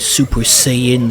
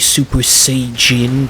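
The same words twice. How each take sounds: First: Saiyan is said with a plain English pronunciation. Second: Saiyan is said with a Japanese-style pronunciation.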